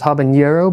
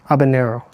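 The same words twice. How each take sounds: First: The middle consonant is a 'ny' sound. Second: The middle consonant is a plain 'n' sound. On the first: The speaker calls it wrong. "I fully thought it was habanero" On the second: The speaker calls it right. "there's no tilde on the N"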